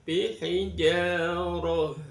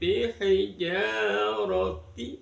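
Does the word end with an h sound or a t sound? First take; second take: h sound; t sound. First: The word ends with an h sound. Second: The word ends with a t and vowel. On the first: The reading stops at this word. "itu kalau dihentikan" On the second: The reading continues past this word. "kalau dibaca terus menjadi bihijaroti"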